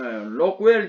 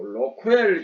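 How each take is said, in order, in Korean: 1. 이 이름은 음절이 두 개입니다: rok-wel. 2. 이 이름은 음절이 세 개입니다: ro-keu-wel. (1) "영어 발음에 조금 맞는 것 같고" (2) "일본식 그 용어가 조금 스며든 것 같아요"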